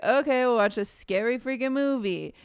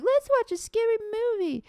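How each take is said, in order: First: Said in the usual way. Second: High, airy mimic of the friends; teasing high-pitched friend imitation; mock friend voice. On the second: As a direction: squeak it out like a giddy friend. Friends quoted suggesting scary movie.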